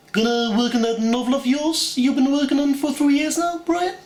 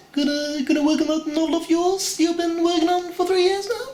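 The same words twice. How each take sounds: First: Much higher cartoon baby voice, mock posh; Stewie Griffin. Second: Much higher cartoon baby voice rising into a question; Stewie Griffin. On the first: Stewie taunting Brian about his novel, high cartoon voice. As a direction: sneer it up high like a cartoon toddler. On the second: Stewie mocking Brian again, higher and rising. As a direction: taunt it high, ending up on the question. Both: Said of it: "do Stewie Griffin from Family Guy".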